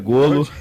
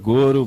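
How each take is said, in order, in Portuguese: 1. A consoante do meio é um som de l. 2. A consoante do meio é um som de r. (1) "corrigindo aqui" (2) "Eu falei goro"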